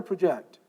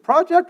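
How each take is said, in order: First: ProJECT, second syllable stressed, as the verb. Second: PROject, first syllable stressed, as the noun. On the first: Teacher shows an ambiguous word, "project" stressed at the end. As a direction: hit the last syllable of "project". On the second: Teacher shows an ambiguous word, "project" stressed up front. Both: Shown as a demonstration. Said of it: "what word is that?".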